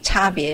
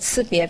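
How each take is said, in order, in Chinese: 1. 第一个音节的元音是'a'。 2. 第一个音节的元音是'i'。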